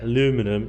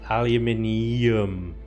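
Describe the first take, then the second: First: No extra vowel sound follows the N. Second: An extra vowel sound follows the N. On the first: The speaker calls it wrong. "The way you say it, aluminum, is just lazy" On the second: The speaker calls it right. "That's why we pronounce it the way it's spelled"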